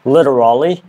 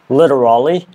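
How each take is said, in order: First: It is said in an American accent. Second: The same.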